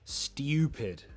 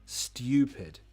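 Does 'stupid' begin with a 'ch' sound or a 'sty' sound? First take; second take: sty; sty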